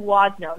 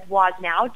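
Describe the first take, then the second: First: The name ends without that extra final sound. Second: The name ends with an extra final sound. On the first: It is the family's own pronunciation. The speaker calls it right. "it's actually Wozno, so the W on the end is silent" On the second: It follows the spelling. The speaker calls it wrong. "a lot of people pronounce it as Woznow because that's exactly how it's spelled"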